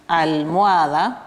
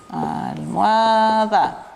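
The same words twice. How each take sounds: First: Said in the usual way. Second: Almohada stretched very slowly with a falling end, as al-mo-a-da; slow it right down to show "Almohada" ends in a, da; syllable-by-syllable demo of "Almohada"; drawn out. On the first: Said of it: "busco una rima asonante". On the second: Shown as a demonstration. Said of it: "Termina con a, da".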